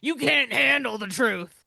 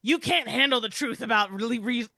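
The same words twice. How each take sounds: First: Lightly voiced gruff movie line, louder; movie quote impression. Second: Movie quote parody. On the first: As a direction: do a hint of the famous courtroom yell. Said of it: "start sounding more like". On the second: Retold or imitated. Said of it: "Wait, wait, I've got it".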